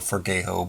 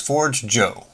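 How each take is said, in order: First: The j is said as a Spanish h-like sound. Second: The j is said as an English j sound. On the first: The speaker calls it wrong. "it makes me want to say Forgejo or Forgejo" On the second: The speaker calls it right. "it is ForgeJo. ... Forge and then like coffee"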